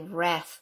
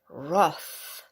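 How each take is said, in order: First: It is said with an American pronunciation. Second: It is said with a non-American pronunciation.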